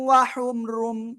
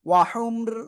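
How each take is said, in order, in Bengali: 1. শব্দটি পূর্ণ 'rum' ধ্বনি দিয়ে শেষ হয়। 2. শব্দটি 'r' ধ্বনিতেই থেমে যায়। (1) "ওয়াহুমরুম না বলে" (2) "ওয়াহুমর, থেমে যাবেন"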